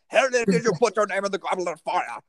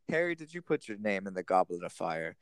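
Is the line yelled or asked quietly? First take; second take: yelled; quiet. First: The line is yelled loudly and frantically. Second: The line is asked quietly and calmly.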